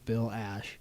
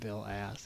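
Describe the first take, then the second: First: The surname ends with an 'sh' sound. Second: The surname ends with an 's' sound. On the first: The speaker calls it right. "It's Bill Ash" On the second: The speaker calls it wrong. "It's not Bill Ass"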